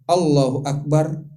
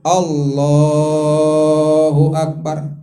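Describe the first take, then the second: First: The phrase is said short and quick. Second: The phrase is drawn out long and slow. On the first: It goes with a short movement, from prostration to sitting. "Kalau dari sujud ke duduk kan pendek tuh" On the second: It goes with a long movement, from standing to prostration. "itu kan takbirnya panjang tuh, pergerakannya lama"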